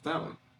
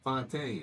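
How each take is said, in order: First: The name is pronounced like English 'fountain'. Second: The name is pronounced the French way. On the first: The speaker calls it wrong. "it's spelled like fountain" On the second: The speaker calls it right. "the pronunciation of it is is uh French"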